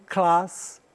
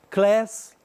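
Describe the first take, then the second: First: Class with a broad British a, like "klahs". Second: Class with a flat American a, like "kless". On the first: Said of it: "um som diferente". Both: Shown as a demonstration.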